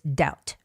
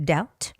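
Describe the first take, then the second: No difference in how they are said.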